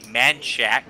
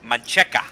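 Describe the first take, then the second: First: It is said in the local Austin pronunciation. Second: It is said in the standard, formal pronunciation. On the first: "the Austinites say" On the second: "That's the proper way of saying it"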